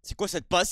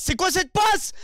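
First: Said in the usual way. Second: "passe" sung higher with a rising lilt; sung, sing-song. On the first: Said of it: "repeated sung take". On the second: Real, not acted. Sung, gamer mocking his own player's pass, sing-song. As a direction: chant it mockingly, stretching "passe". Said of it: "repeated spoken take".

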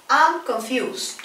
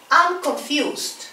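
No difference in how they are said.

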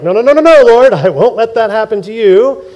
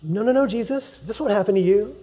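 First: Loud, high insistent no's; loud protest. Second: Soft, hushed no's; quiet protest. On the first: Peter loudly refusing Jesus' fate. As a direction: shout him down in denial. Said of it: "The same guy who's like". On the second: Preacher recalling Peter's protest, softly. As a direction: barely voice the denial. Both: Retold or imitated.

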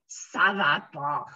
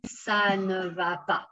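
First: "ça va pas" with no "ne", low and slow; low, drawn-out spoken "ça va pas"; casual spoken form. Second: "ça ne va pas" with "ne" sounded; careful "ça ne va pas", nothing dropped; full correct form. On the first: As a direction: drop the "ne" and drag out "pas". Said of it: "But when we speak". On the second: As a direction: give "ne" its own syllable. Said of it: "the correct form would be". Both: Shown as a demonstration.

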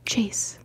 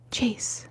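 Both takes have the same delivery.

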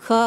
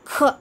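First: Said in the usual way. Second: க released as kha with a puff of air. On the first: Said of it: "அந்த first க". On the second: Shown as a demonstration. Teacher adds air to the first க, aspirated kha. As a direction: push air out on க, making kha. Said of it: "காத்தோட சொல்லிட்டோம்னா".

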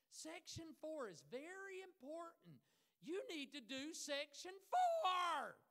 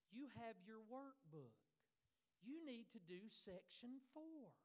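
First: Slow, very loud mock yelling; exaggerated teacher shout. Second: Slow, measured teacher's voice; calm and kind. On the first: Imitating a teacher ordering students, exaggerated shouting. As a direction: hammer it out slowly, building to a hammed-up bellow. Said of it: "She didn't talk like that". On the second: Retold or imitated. Teacher instructing students, calm and kind. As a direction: say it calmly and kindly, taking your time. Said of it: "she would very calmly and kindly say".

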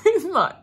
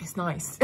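First: It's nice squealed through a laugh, much higher and louder. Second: Said in the usual way. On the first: Real, not acted. Repeating to her viewers, giggling.

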